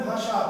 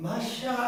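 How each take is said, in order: First: Said in the usual way. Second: ভাষা with exaggerated, drawn-out sh and ending; mock distinct pronunciation. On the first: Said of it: "দুটার উচ্চারণ কি আপনি দুই ভাবে করেন". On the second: Shown as a demonstration. Teacher asking students if they say the second spelling differently, mock drawn-out ভাষা. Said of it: "এরকম করে করেন".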